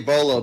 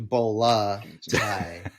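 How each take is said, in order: First: The word ends in an 'o' vowel. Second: The word ends in an 'a' vowel. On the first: The speaker calls it wrong. "We tend to say bolo because it's it has that masculine ending" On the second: The speaker calls it right. "but it's actually bola tie"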